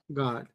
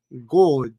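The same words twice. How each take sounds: First: The vowel is an open 'a' sound. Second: The vowel is a rounded 'o' sound. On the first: "estamos estudiando el acento americano" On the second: "si se van a Inglaterra, es muy posible de que el God, como ellos lo pronuncian, suene como una O"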